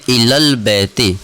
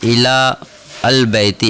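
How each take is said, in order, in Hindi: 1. Ila और al मिलकर 'ilal' की तरह बोले जाते हैं। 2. Ila और al अलग शब्दों की तरह बोले जाते हैं। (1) "बल्कि इलल बैती" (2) "इसको यूँ नहीं कहेंगे"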